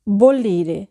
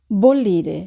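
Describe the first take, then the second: No difference in how they are said.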